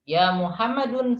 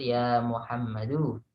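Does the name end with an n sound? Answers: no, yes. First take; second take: yes; no. First: The name ends with an added n sound. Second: The name ends on a plain vowel, no n. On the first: The speaker calls it wrong. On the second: The speaker calls it right. "Yang betul"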